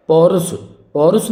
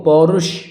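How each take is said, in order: First: पौरुष ending in plain s, "paurus"; mistaken s ending. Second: पौरुष ending in sh, "paurush"; correct sh ending. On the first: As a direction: end पौरुष on s instead of sh. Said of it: "नहीं होगा". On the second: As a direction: land पौरुष on a firm sh. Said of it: "पौरुष होगा". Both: Shown as a demonstration.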